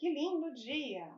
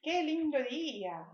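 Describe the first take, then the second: First: "Que lindo dia" slow, with a high "Que" falling to the end; exclamation tune. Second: "que lindo dia" said slowly, as an exclamation falling from a high "que"; exclamation tune. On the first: Teacher repeating the exclamation example, exclamatory tune. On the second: Teacher demonstrating an exclamation to students, exclamatory tune. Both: Shown as a demonstration. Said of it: "quando a gente quer fazer uma exclamação".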